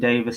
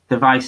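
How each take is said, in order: First: The name is said like 'Davis'. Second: The name ends with a 'vice' sound. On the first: The speaker calls it right. "the surname Davis spelt phonetically" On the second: The speaker calls it wrong. "device is technically wrong"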